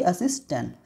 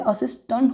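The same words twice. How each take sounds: First: असिस्टेंट with a "tent" ending; wrong "e" sound. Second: असिस्टेंट with a "tunt" ending; correct "a" sound. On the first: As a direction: make the last vowel of असिस्टेंट "e". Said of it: "ना कि असिस्टेंट". (असिस्टेंट में साफ़ "टेंट") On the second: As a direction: make the last vowel of असिस्टेंट "uh". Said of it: "तो यहाँ पे असिस्टेंट होगा". (असिस्टेंट को "असिस्टंट" बोलें) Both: Shown as a demonstration.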